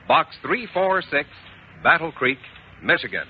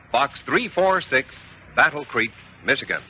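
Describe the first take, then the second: No difference in how they are said.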